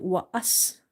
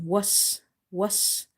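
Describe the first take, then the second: First: "wa as" broken into two separate syllables; wrong split syllables. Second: "Was" as one joined syllable ending in a hissed s; waw joined to sin. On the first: Teacher showing what never to say, split "wa as". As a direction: split it, "wa", then "as". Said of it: "never say it wa as". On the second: Teacher showing waw joined with sin, one-syllable "was". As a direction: run w straight into s in "was". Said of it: "join waw with the sin". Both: Shown as a demonstration.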